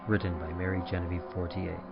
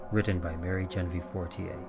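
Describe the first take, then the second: No difference in how they are said.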